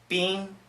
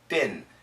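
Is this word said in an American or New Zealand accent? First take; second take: New Zealand; American. First: It has a long, high vowel. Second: It has a short, lower vowel. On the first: "she says bean" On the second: "in America, this pronunciation is ben... it's a little bit shorter"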